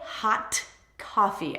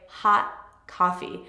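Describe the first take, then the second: First: The T at the end of hot is pronounced. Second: The T at the end of hot is dropped. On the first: The speaker calls it wrong. "I don't say hot coffee" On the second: The speaker calls it right. "you will completely drop that T"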